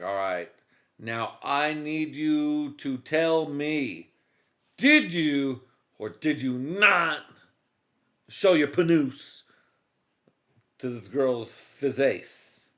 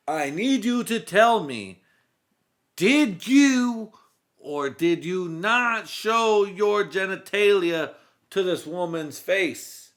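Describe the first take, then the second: First: Slow, stern questioning; stern cop. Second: Higher, louder, slow cop demand; cop interrogation. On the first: Cop first asking suspect, slow and stern. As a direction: grill him calmly and slowly. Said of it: "first take of cop line". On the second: Cop re-asking suspect, slow and loud. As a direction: drag out each word like a furious detective. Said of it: "retake of the cop line". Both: Retold or imitated.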